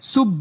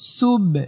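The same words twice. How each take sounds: First: The b is closed with no echoing release. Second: The b ends with a light echoing bounce. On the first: The speaker calls it wrong. "আপনি যদি বাতে কলকলা না করেন" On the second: The speaker calls it right. "কলকলা মানে হচ্ছে রিটার্ন একটা আওয়াজ বা প্রতিধ্বনি। ... সুব এমন।"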